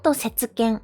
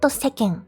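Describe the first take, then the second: First: A full tsu syllable sits between se and ken. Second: A single short k joins se and ken. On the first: "not setsuken" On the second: "not seken"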